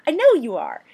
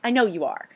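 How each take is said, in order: First: "know" pushed higher and louder; "I know you are" punched on "know"; emphatic repeat. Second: Said in the usual way. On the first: Real, not acted. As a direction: insist on "know", teasing.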